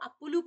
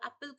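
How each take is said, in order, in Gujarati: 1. આ શબ્દ ઉમેરેલા u સ્વરથી અંત પામે છે. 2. આ શબ્દ l વ્યંજનથી અંત પામે છે. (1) "ଆପୁଲୁ କହୁଛେ" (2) "ଆପେଲ କୁ"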